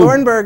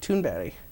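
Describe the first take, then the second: First: The name is said in an American way. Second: The name is said in a Swedish way. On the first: The speaker calls it wrong. "essentially the American bastardization" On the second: The speaker calls it right. "That's the Swedish pronunciation"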